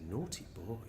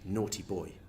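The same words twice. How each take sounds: First: It is said in a light, playful tone. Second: It is said in a stern, scolding tone. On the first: "that's a completely different completely intonation" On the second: "you might think that he's been told off"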